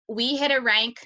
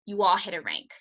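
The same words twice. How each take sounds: First: "we hit a rank" with HIT pushed a little louder; stress on we. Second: "you all hit a rank" with ALL stressed and pitch dropping. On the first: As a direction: lean on "hit". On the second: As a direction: point at the audience on "all". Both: Shown as a demonstration. We versus you all contrast.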